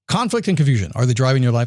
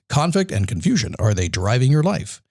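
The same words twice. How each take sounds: First: The sentence is spoken quickly. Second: The sentence is spoken slowly. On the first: The speaker calls it wrong. "I said it too fast" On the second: The speaker calls it right. "let me slow down so you actually hear it"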